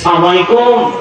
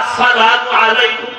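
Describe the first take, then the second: First: The opening syllable is dropped and words run together. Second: Both words are said fully with every syllable. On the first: The speaker calls it wrong. "কত শব্দ ভুল" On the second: The speaker calls it right. "দুইটা শব্দ কি শিখতে পারলা না"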